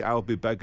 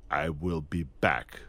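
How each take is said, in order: First: Said in the usual way. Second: Low, slow, deliberate machine line; machine-like delivery. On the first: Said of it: "No, no, no, just say". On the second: Retold or imitated. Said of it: "a machine".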